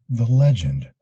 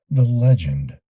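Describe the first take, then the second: No difference in how they are said.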